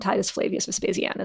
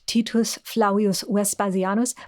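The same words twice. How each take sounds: First: The name is said with ordinary English pronunciation. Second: The name is said with classical Latin pronunciation. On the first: This is an acceptable everyday way to say it. "you can just call him" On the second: This is how the man himself would have said it. "he would probably have said it"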